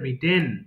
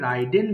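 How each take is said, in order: First: The first vowel is a short 'ih' sound. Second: The first vowel sounds like the word 'eye'. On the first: The speaker calls it right. "এটা কিন্তু হবে রিডেন" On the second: The speaker calls it wrong. "এটা ভুল করে রাইডেন বলি ফেলি আমরা"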